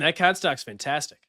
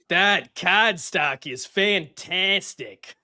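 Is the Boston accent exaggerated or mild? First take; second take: mild; exaggerated. First: A natural, believable Boston accent. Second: A heavily overdone, cartoonish Boston accent. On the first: "do um your normal Boston accent" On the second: "hilariously dumb clownish version of a Boston accent"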